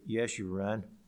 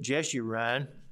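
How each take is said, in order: First: The name begins with a Y sound. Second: The name begins with a J sound. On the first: This is the original Hebrew form of the name. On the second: This is the usual English form of the name.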